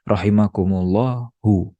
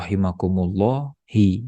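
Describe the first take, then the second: First: The word ends in a u vowel. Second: The word ends in an i vowel. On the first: The speaker calls it right. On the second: The speaker calls it wrong. "Tidak boleh"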